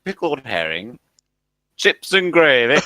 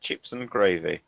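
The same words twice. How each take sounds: First: Put-on broad northern accent, slow and louder at the end. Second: Low, soft Southern English accent. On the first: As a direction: read the sign in broad Northern English. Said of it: "written in a northern accent". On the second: Shown as a demonstration. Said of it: "say it in a southern accent".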